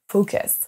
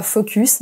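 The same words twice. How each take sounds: First: Focus with an English schwa, like fɔkəs. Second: Focus with a French U, like fɔkys; French-style focus. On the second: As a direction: read focus as a French word. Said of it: "on ne dit pas". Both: Shown as a demonstration.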